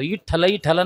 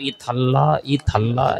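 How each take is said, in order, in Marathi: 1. हा शब्द स्पष्ट आणि ठामपणे उच्चारला आहे. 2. हा शब्द अस्पष्ट, जणू दात नसल्यासारखा उच्चारला आहे. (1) "इठ्ठला इठ्ठला नाही म्हणत तो" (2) "उच्चार बी व्यवस्थित निघत नाही"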